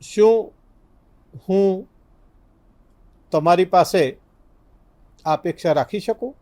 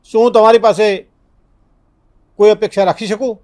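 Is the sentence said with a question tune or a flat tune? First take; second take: question; flat. First: It is said with a questioning tune. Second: It is said with a flat, non-questioning tune. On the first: The speaker calls it right. "આ પ્રશ્નનો tone છે" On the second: The speaker calls it wrong. "તો આ પ્રશ્નનો tone નથી"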